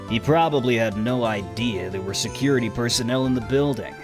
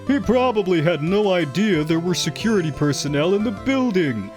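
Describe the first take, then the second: First: It uses a different voice from the objection. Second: It uses the same put-on voice as the objection. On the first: The speaker calls it right. "Like, it doesn't work" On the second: The speaker calls it wrong. "I purposely don't do the same voice as Godot's objection line because I reckon he'd sound stupid. It'd be like"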